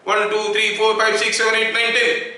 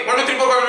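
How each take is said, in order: First: Each number said distinctly; clear count. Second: Numbers gabbled into a blur, higher pitch; very fast count. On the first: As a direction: count evenly so every number is heard. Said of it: "सारा अगर clearly सुनाई दिया". (साफ़-साफ़ गिनती) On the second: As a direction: race through the counting without gaps. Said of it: "मैं इतना speed बोल दिया". (बहुत तेज़, गड्डमड्ड गिनती) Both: Shown as a demonstration.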